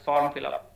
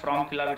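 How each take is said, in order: First: The r sound comes after the vowel. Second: The r sound comes before the vowel. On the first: The speaker calls it right. "it's form fill up" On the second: The speaker calls it wrong. "be careful, not from fill up"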